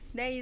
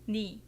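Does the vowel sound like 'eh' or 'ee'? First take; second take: eh; ee. First: The vowel sounds like 'eh'. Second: The vowel sounds like 'ee'. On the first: This is the standard form. "네 is correct according to standard pronunciation" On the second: This is the everyday form that avoids confusion. "people usually pronounce it just 니"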